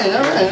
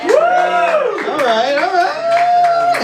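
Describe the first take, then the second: First: Said in the usual way. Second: Long, stretched-out all riiight, pitched up; drawn-out hype. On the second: Shown as a demonstration. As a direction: stretch right out to hype the crowd. Hyping the crowd, stretched out.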